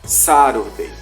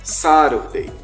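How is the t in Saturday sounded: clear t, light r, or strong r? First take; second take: light r; light r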